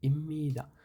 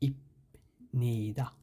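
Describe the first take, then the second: First: A doubled m sound replaces the p and n. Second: A p sound comes before the n. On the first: The speaker calls it right. "ময়ের মতো উচ্চারণ হবে" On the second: The speaker calls it wrong. "উচ্চারণ হওয়ার কথা ছিল ইপনিদা"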